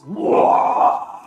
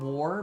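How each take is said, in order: First: The word is yelled gutturally in a Cockney accent. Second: The word is said plainly, in an ordinary accent. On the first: "saying it with their Cockney accent, so it comes out as" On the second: "literally screaming the word war"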